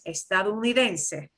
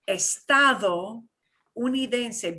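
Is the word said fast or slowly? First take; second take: fast; slowly. First: It is said very fast as one word. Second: It is said slowly, split in two parts.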